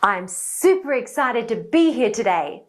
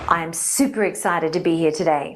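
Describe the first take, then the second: First: The sentence is spoken at a high pitch. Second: The sentence is spoken at a low pitch. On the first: The speaker calls it right. "Let's try a higher pitch" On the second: The speaker calls it wrong. "in a low pitch"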